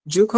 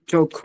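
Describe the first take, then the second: First: ঝোঁক said as "juk", with oo; wrong vowel option. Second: চোখ said as "joke", with o; correct vowel option. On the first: Teacher offering learner two choices, wrong vowel option. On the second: Teacher offering learner two choices, correct vowel option. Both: Shown as a demonstration. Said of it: "ঝোঁক হবে নাকি চোখ হবে".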